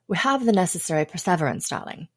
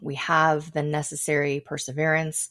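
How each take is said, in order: First: It is said in a put-on English accent. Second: It is said in her ordinary American accent.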